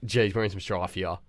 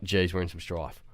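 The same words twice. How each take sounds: First: Low, soft "Geez, we're in some strife here."; muttered worry. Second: Low, soft "Geez, we're in some strife."; muttered worry. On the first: Boy muttering again as he's caught, worried. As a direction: say it quietly under your breath. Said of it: "I'm like". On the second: Boy muttering as the teacher walks in, worried. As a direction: mutter it under your breath. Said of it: "And I was like". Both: Retold or imitated.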